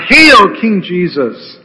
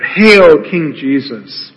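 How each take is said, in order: First: Mocking cry. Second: Mock hail. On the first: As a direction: hail him like a soldier making fun of a fake king. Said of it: "mockingly they bow before him and cry out". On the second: Soldiers jeering Jesus, retold slowly: fading mock hail. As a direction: let the mockery sink in slowly. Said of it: "They cry out".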